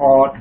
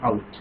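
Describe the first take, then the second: First: The vowel is a short plain 'o' sound. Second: The vowel glides from 'a' to 'oo'. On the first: The speaker calls it wrong. "করতেছে অট হবে" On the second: The speaker calls it right. "অথচ উচ্চারণটা হচ্ছে আউট"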